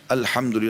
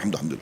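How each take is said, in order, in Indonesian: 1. Diucapkan lambat, disengaja. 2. Diucapkan cepat, digumamkan. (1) "Sambil renungi nikmat Allah" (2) "kayak orang kumur-kumur"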